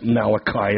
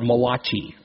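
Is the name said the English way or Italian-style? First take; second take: English; Italian-style. First: The name is said with the usual English pronunciation. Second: The name is said with an Italian-style pronunciation. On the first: The speaker calls it right. "No, that's Malachi" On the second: The speaker calls it wrong. "the Italian author"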